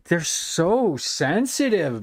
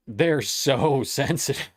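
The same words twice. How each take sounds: First: They're so sensitive, with so drawn long and falling; dragged out in disbelief; drawn-out scorn. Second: They're so sensitive, broken by a laugh; amused chuckle mid-phrase. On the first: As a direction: stretch out so sensitive, very slow. Mocking the sensitive streamers. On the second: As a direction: laugh through the word sensitive. Laughing at the streamers again. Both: Real, not acted.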